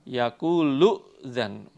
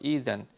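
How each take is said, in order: First: The word is joined to the word before. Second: The word starts alone with a long i sound. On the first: The reading continues from the previous word. "kalau dilanjutkan dengan kalimat sebelumnya, itu hamzahnya dihidupkan" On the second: The reading starts fresh at this word. "kalau dibaca dari kalimat idzan, itu hamzahnya diganti ya, terus alifnya dikasroh"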